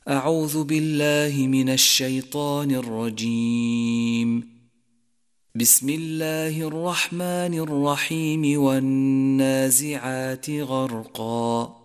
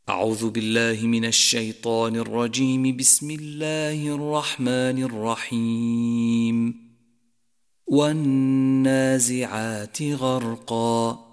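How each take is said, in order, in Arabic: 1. يكون الوقف بعد العبارة الأولى فقط. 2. يكون الوقف بعد العبارة الثانية فقط. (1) "على الاستعاذة ووصل البسملة بأول السورة" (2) "وصل الاستعاذة بالبسملة والوقف عليها ثم الابتداء بأول السورة"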